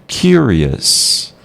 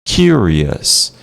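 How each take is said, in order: The two takes are said the same way.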